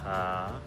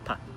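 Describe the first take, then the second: First: It is said with the third tone. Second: It is light and unstressed, fading out. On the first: "Then you have the third tone again" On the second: "the neutral tone"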